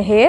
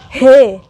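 First: "हे" said gently, with a light h; soft he. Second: "हे" pushed out hard and loud; heavy he. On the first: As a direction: say "हे" softly, without force. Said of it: "ये ज़रा धीरे से बोलना है". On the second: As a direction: put force into the h of "हे". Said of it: "इसको heavy बोलना है ताकत लगाकर". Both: Shown as a demonstration.

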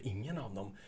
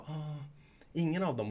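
First: Soft deflated echo of the answer, softer; deflated repeat. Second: Offhand customer answer, higher; mock offhand customer reply; casual customer answer. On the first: Retold or imitated. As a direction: repeat it quietly, let down. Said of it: "Och då tänkte du". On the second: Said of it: "Då kommer de bara".

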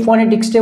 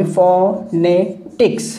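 First: Said in the usual way. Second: ফনেটিক্স slowly split into three syllables, fo-ne-tiks. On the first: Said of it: "কয়টা syllable হয়". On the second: Shown as a demonstration. Teacher showing learners the syllables of ফনেটিক্স, said slowly piece by piece. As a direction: break ফনেটিক্স into fo, ne, tiks with clear gaps. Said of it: "কয়টা syllable হয়? তিনটা".

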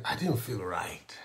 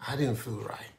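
First: Breathy hushed whisper, low. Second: Said in the usual way. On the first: Retold or imitated. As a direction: confide it under the breath. Retelling feeling unwell, whispered.

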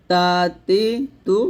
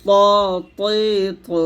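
First: তা তি তু each with light dental t; thin light t. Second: ত তৈ তু with dark emphatic t and rounded vowels; heavy full-mouthed ত, তৈ, তু; thick heavy t. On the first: Teacher summing up for learners, thin t. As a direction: clean thin তা, তি, তু, separated by pauses. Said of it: "পাতলা করে". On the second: Teacher summing up for learners, thick t. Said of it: "মোটা করে". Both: Shown as a demonstration.

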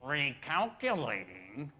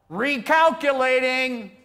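First: Slow, sugary GPS lady; sweet lady's voice. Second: Loud, high, drawn-out holler. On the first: Retold or imitated. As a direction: draw it out sweetly with a lilting rise. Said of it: "sweet, loving lady's voice say". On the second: Acted. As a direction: holler it out slowly from the back of the crowd. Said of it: "somebody hollers out".

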